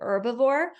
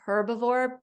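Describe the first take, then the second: First: One sound of the word is left out. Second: Every sound of the word is clearly pronounced. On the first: This is a common everyday way of saying it. "Sometimes people say herbivore" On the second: This makes every sound easy to hear. "We're saying herbivore so that we can hear all the sounds in the word"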